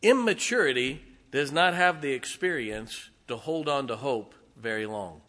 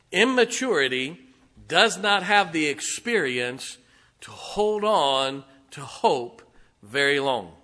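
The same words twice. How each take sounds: First: Said in the usual way. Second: "Immaturity does not have the experience" said slowly, each phrase set apart; emphatic restatement. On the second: Real, not acted. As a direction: drive home "to hold on to hope very long" in slow, separated phrases. Same statement repeated for emphasis.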